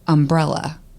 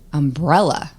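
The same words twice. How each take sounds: First: The stress is on the first syllable. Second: The stress is on the second syllable. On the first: "they would tell me that I said words differently" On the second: "So they put the emphasis on the second syllable"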